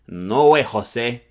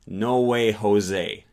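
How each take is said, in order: First: Spanish accent, with pure single vowels. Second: American accent, with gliding diphthong vowels. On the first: "a Spanish-speaking immigrant who would probably say" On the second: "the way an American might pronounce the English phrase"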